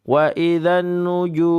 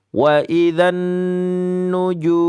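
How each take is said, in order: First: The nasal hum is held only briefly. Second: The nasal hum is held long. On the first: The speaker calls it wrong. "jangan cuma sekedar mampir" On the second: The speaker calls it right. "bahkan begitu, lebih bagus bacaannya"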